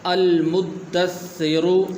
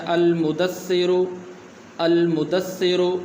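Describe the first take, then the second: First: المدثرو very slow with the doubled د held; correct pronunciation. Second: المدثرو said without the doubled د; المدثرو, shadda on د dropped; wrong pronunciation. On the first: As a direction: stretch المدثرو, holding the shadda on د. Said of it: "صحیح طریقہ اس کا یہ ہے". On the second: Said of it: "غلط طریقہ جو لوگ پڑھتے ہیں". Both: Shown as a demonstration.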